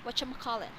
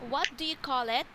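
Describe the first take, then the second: First: It is said fast with words run together. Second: Every word is said fully and clearly. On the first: "if you're going to say it in a very quick one" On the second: "That's the full one"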